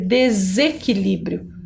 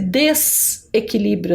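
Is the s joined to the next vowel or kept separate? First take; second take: joined; separate. First: The s joins the following vowel in one syllable. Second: The s stays apart from the following vowel. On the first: The speaker calls it right. "na hora de pronunciar vai sair desequilíbrio" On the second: The speaker calls it wrong. "Parece desequilíbrio, né?"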